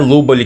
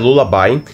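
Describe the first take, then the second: First: The name is said as 'Lubali'. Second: The name is said as English 'Lullaby'. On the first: The speaker calls it wrong. "Eu sei que eu tô pronunciando o nome errado, não é Lubali que fala" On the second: The speaker calls it right. "é Lullaby"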